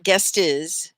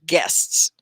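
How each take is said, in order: First: GUEST IS as a wrong "guest-iz"; extra syllable. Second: GUESTS said loud in one beat; one syllable. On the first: Teacher shows students the mistake, extra syllable. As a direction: split it into two beats, GUEST IS. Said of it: "So it's not guest is". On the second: Teacher models the word for students, one syllable. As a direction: keep the whole "sts" cluster on GUESTS. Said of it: "right, one syllable". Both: Shown as a demonstration.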